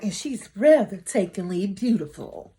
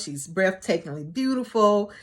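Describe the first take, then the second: First: Swooping stress on "breathtakingly"; preacher's dramatic inflection. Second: Said in the usual way. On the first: Retold or imitated. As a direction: imitate a preacher, lilting up and down on "breathtakingly beautiful". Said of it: "all that in, in, uh, inflection in his voice". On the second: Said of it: "family wants him to know".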